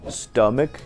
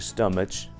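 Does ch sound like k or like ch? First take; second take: k; ch. First: The ch is pronounced as k. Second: The ch is pronounced as ch. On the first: The speaker calls it right. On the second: The speaker calls it wrong.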